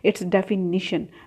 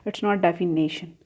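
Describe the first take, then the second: First: The vowel before 'tion' sounds like 'ih'. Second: The vowel before 'tion' sounds like 'ay'. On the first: The speaker calls it right. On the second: The speaker calls it wrong. "the spelling as D E F I N A T I O N, which is wrong"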